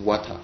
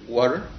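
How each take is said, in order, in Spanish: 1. Se dice con acento británico. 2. Se dice con acento estadounidense. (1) "en Inglaterra dicen water" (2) "en Estados Unidos dicen water"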